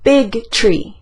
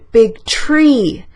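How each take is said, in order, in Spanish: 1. El acento cae igual en ambas palabras. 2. El acento cae en la palabra tree. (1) "esas dos cosas son igual de importantes para mí" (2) "Voy a enfatizar árbol"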